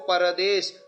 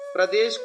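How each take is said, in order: First: A vowel is inserted between p and r. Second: The p and r form one cluster. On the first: The speaker calls it wrong. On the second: The speaker calls it right.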